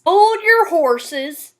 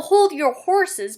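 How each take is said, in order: First: Slow Southern cowboy drawl with hard R's; masculine Southern cowboy. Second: Said in the usual way. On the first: Shown as a demonstration. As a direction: exaggerate every R like a Southern cowboy. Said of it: "the R's are always exaggerated".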